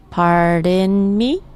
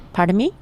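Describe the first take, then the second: First: Slow, stretched "Pardon me", rising on "me"; syllable by syllable. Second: Said in the usual way. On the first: Shown as a demonstration. Teacher modelling "Pardon me" for learners, syllable by syllable. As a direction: draw out each syllable of "Pardon me". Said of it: "Let's break it down by syllable". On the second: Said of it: "say it like you mean it".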